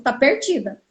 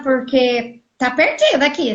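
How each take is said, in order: First: A hint of the receptionist's pity on 'perdida'; imitating the receptionist. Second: Said in the usual way. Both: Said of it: "Falou desse jeito".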